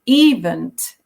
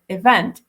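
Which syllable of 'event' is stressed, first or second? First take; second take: first; second. First: The stress is on the first syllable. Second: The stress is on the second syllable. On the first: The speaker calls it wrong. "he kept saying event ... because he was stressing the first syllable" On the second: The speaker calls it right. "instead of event"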